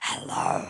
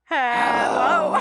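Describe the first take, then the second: First: It is said in a low growly voice. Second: It is said in a normal voice.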